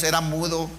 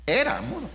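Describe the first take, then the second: First: Said in the usual way. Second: "Era mudo" said again much higher, the word "Era" pitched up and falling; emphatic repeat. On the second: Shown as a demonstration. Preacher telling the congregation the man was mute, "Era" lifted high. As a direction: lift "Era" high, then let "mudo" drop in amazement.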